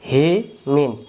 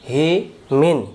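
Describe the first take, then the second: The two takes are said the same way.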